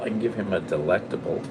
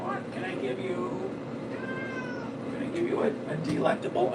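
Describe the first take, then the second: First: Said in the usual way. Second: Very high, soft, half-whispered pet voice; baby talk to the cat. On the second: Acted. Owner offering the cat a treat in soft baby talk. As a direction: coax the cat sweetly.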